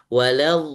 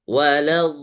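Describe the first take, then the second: No difference in how they are said.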